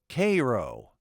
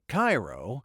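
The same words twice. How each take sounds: First: Cairo is said the local Illinois way. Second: Cairo is said the usual, well-known way. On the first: This is how the soldier said his hometown. "he pronounced it Cairo" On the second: This is how the soldier did not say it. "He didn't pronounce it Cairo"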